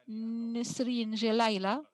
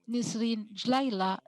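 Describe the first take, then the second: First: The name is said the standard way. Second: The name is said the Moroccan way.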